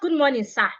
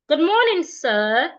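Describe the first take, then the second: First: The pitch falls at the end. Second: The pitch rises at the end. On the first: The speaker calls it wrong. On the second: The speaker calls it right. "you should also use a rising intonation"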